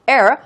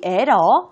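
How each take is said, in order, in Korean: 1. 영어 발음으로 발음해요. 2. 한국어 외래어 발음으로 발음해요. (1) "영어 같이 발음했다가" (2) "한국말 같이 발음했다가"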